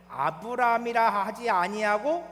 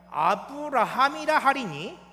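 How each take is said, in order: First: "아브라함이라" drawn out as a-beu-ram-i-ra, without the HA; name as Abram. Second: "아브라함이라" slow and loud, with an added HA: a-beu-ra-HAM-i-ra; name as Abraham. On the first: Preacher leading the congregation through the verse, "아브라함이라" said as a-beu-ram-i-ra. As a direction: read "아브라함이라" slowly and loudly as the short name Abram. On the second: Preacher reading the new name to the congregation, "아브라함이라" as a slow, loud a-beu-ra-HAM-i-ra. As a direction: stretch "아브라함이라" and sound out the HA before the m. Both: Shown as a demonstration. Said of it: "아브람과 아브라함의 차이".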